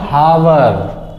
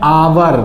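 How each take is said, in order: First: The word starts with an h sound. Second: The word starts with a vowel sound. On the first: The speaker calls it wrong. "Not हावर" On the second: The speaker calls it right. "इसको पढ़ा जाता है आवर"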